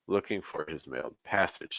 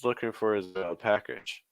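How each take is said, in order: First: The whole phrase is pitched low. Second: The whole phrase is pitched high. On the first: "one option is just take everything down" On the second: "you can push everything up"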